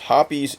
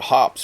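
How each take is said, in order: First: The name is said with two syllables. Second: The name is said with one syllable. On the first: The speaker calls it right. "is the correct pronunciation" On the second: The speaker calls it wrong. "I called it Hops for years, but I was wrong"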